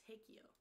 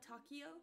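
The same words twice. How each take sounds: First: "Takio" said TAKE-ee-oh; long A as in take to open "Takio"; alternative pronunciation. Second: "Takio" said TOCK-ee-oh; taco-like pronunciation. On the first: Streamer guessing a cat's name again, "Takio" as TAKE-ee-oh. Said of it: "Or is it like". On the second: Streamer checking a cat's name, "Takio" as TOCK-ee-oh. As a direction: start "Takio" like taco, then ee-oh. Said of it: "Like taco". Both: Shown as a demonstration.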